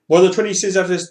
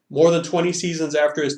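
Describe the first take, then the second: First: It is read very fast and breaks down. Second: It is read at a normal, regular pace. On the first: "now read it faster" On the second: "just read something as you would read it regularly"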